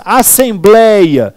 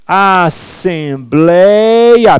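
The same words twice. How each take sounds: First: Said in the usual way. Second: "Assembleia" stretched very slowly, syllable by syllable; slow, drawn-out "Assembleia" for dictation; syllables separated. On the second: Shown as a demonstration. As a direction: hold each beat of "Assembleia". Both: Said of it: "Vou separar".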